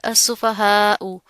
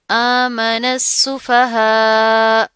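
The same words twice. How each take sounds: First: "असुफहाउ" slowly, with the final "उ" sounded; slow "असुफहाउ", ending on a clear short "उ"; full word form. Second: "आमन सुफहा" loud and very slow, long final "हा" without "उ"; drawn-out, louder "आमन सुफहा" with the ending dropped for the pause; stopping recitation. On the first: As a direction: sound out "असुफहाउ" to its last vowel. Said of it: "ये क्या बनता है word?". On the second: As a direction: chant "आमन सुफहा", stopping on a held last vowel. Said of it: "वक्फ कर दिया". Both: Shown as a demonstration.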